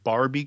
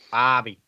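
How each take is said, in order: First: The name is said in a plain accent. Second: The name is said in an Australian accent. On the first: The speaker calls it wrong. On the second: The speaker calls it right.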